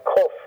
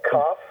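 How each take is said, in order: First: "kof" with a rounded oh and a firm K; slightly harder kof. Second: "kaf" with an open ah as in father. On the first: Teacher contrasting similar letters, kohf with oh. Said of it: "a little bit harder". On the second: Teacher contrasting similar letters, kahf with ah. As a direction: say "kaf" with a K and a long ah. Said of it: "they sound the same kind of". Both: Shown as a demonstration.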